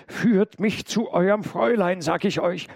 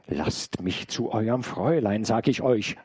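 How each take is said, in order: First: High, loud, forceful demand; wild cry. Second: Restrained repeated demand; insistent call. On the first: Intruder demands the maid take him to her mistress, wild cry. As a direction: call out wildly, pitched well up. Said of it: "rief noch wilder als zuvor". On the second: Intruder demands the mistress a second time, mildly insistent call. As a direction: press the demand with only slightly raised voice. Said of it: "rief der Mensch nochmals". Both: A narrator's reading.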